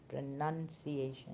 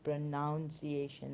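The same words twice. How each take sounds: First: The second syllable sounds like 'nun'. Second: The second syllable sounds like 'noun'. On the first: The speaker calls it right. "it's pronunciation" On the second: The speaker calls it wrong. "It's not pronounce"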